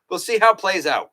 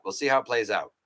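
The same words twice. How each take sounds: First: Higher and louder, upbeat and punchy; bright emphatic take, higher and louder. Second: Said in the usual way. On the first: Acted. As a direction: announce it like a hopeful teaser. Says it twice, first raised.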